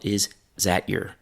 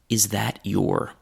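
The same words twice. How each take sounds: First: The vowel of is drops, giving zat yer. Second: Every word is said fully, your with long vowel. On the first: This is less formal still. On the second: This is the most formal form.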